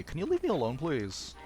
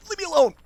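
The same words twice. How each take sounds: First: Polite plea with a lilt on alone; asking nicely. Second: High, loud yell to back off; sudden shout. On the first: Player politely asking the game's enemy to back off, asking nicely. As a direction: ask sweetly to be left alone. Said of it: "I'll ask nicely". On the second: Player losing patience after asking nicely, sudden shout. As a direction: burst out in a high-pitched holler. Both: Pretend.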